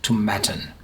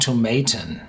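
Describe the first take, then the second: First: The ending rhymes with satin. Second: The ending does not rhyme with satin. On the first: The speaker calls it right. "it's called like satin Tomatin" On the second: The speaker calls it wrong. "I'm used to saying Tomatin"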